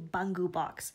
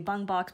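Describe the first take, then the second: First: The first word has two syllables. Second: The first word has one syllable. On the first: The speaker calls it right. "It's actually Bungu Box" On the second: The speaker calls it wrong. "typically in the English world, we all say Bung Box"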